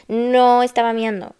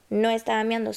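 First: No estaba miando with a hard stressed no, falling. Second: No estaba miando repeated quietly; softer repeat. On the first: Clarifying to the audience, stressed denial. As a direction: lean on the word no. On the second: Clarifying to the audience, quiet repeat. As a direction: drop the no estaba miando to a soft aside. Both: Shown as a demonstration. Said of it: "repeats line softer".

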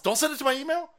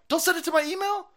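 First: Exasperated plea. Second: More exasperated plea. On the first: Pleading with clinic, repeated. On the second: Repeated, more heated. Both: Real, not acted.

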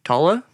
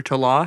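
First: Talla said as TAH-luh; first-syllable stress. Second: Talla said as tuh-LAH; second-syllable stress. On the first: Naming the band, [name] said as TAH-luh. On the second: Offering another option, [name] said as tuh-LAH. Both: Shown as a demonstration. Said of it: "however you say it".

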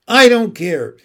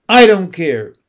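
First: Higher, louder, tearful repeat; the same outburst rising into sobs; crying defiance. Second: Loud, tearful outburst; a boy yelling at his father through tears; crying defiance. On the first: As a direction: push it out harder through tears. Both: A narrator's reading. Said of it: "He was crying now".

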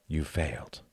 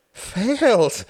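First: Said in the usual way. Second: High, loud, falling wail; despairing wail. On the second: A narrator's reading. Hart echoing his friend's verdict, wailing in despair. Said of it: "wailed Hart in despair".

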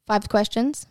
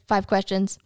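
First: "Five questions" with a rising questioning end; questioning repeat. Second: "Five questions" as a falling, settled statement; matter-of-fact confirmation. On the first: Woman querying the voice from the speaker, questioning. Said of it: "The woman asks". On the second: Speaker voice answering the woman, matter-of-fact. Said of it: "the voice says". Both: Acted.

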